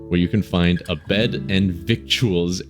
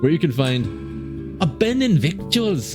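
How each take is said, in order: First: It is read in the speaker's normal voice. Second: It is read in a put-on accent.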